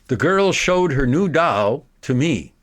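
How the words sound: A long pause follows the direct object. "making a big pause after the direct object"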